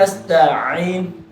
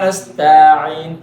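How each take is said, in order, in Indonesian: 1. Ada jeda kecil yang memisahkan t dan ain. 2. Vokal tengahnya dipanjangkan. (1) "Malah jadi ada jedanya tak dengan ain tuh" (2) "kayaknya manjang"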